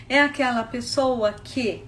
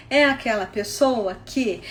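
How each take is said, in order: Both takes have the same delivery.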